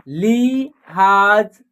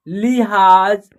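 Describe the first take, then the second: First: "लिहाज" as लि, gap, हाज; split into syllables. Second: Said in the usual way. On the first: Shown as a demonstration. Teacher sounding out a word, "लिहाज" in separate slow syllables. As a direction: slowly break "लिहाज" in two. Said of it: "तीनों को जोड़ेंगे तो एक शब्द". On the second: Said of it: "क्या होगा".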